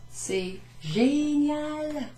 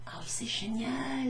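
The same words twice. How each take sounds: First: Very slow, high and amazed; mock awe. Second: Breathless amazed whisper; whispered awe. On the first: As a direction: marvel at it dramatically. Begeisterung übertrieben vorgespielt. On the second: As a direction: hush it like a secret wonder. Flüsternde Wiederholung. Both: Shown as a demonstration.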